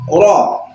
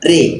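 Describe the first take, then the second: First: The r is followed by an open a vowel. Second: The r is followed by an e-like vowel. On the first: "kaidah umumnya ro itu kalau di fathah dibaca ro" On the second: "di sini dibaca re, dibaca imalah"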